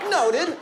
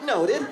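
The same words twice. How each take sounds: First: Squeaky, loud noted; high, loud mock reply; high mock acknowledgment. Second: Squeaky, loud repeated noted; high, loud mock reply; high mock acknowledgment. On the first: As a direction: chirp it back like a chastened pupil. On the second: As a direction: chirp it again, still high.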